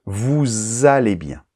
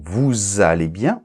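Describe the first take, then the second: First: Vous allez bien, slowly, with a clear z sound linking vous to allez; teacher modelling the liaison; slow liaison demo. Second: Said in the usual way. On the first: Shown as a demonstration. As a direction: spell out the liaison, slow and careful. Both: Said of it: "on entend la lettre S".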